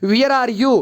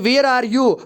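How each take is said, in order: First: The first word's vowel sounds like 'ee'. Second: The first word's vowel sounds like 'air'. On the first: The speaker calls it wrong. "बिल्कुल wrong करते हैं। वो कहते हैं वियर" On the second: The speaker calls it right. "इसकी pronunciation वेयर होती है"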